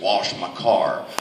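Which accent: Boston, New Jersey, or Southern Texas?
Southern Texas. It is said in a Southern Texas accent.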